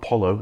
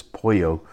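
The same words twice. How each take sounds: First: Polo with a plain English L; wrong L sound. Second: Pollo as POY-oh; double L as Y. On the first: Guide showing how not to say chicken, plain L. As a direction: say polo as POL-oh. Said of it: "so it's not". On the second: Guide giving the Spanish for chicken, Y sound. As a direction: say pollo with a Y in the middle. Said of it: "it becomes a Y sound". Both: Shown as a demonstration.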